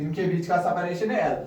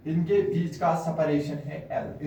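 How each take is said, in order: First: Said in the usual way. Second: "इनके बीच का separation है L" said slowly, word by word, for notes; slow dictation. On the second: Shown as a demonstration. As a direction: spell out "इनके बीच का separation है L" slowly so students can write.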